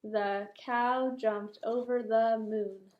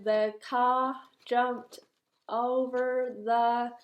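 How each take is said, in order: First: Slow careful read with "cow" said clearly; correct rereading. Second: Slow halting read, saying "car" clearly; misreading a word. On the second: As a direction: read "car" slowly, as a child's mistake. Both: Shown as a demonstration. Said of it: "That is a cow, not car".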